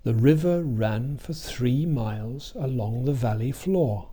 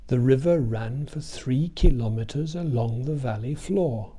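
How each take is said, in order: First: Even beats on RIVER, RAN, THREE, MILES, VALLEY, FLOOR; "three miles" as two beats in a steady rhythm; regular stress beat. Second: Even beats on RIVER, RAN, THREE, kiLOmeters, VALLEY, FLOOR; regular stress beat. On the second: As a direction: fit the weak syllables of "kilometers" into the same steady beat. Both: Shown as a demonstration. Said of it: "Listen to the regular beat".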